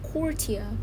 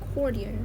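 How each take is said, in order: First: It has a British accent with a clear T. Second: It has an American accent with a softer T. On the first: "In British pronunciation, you say it with a clearer T sound" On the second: "in American accent you can say it"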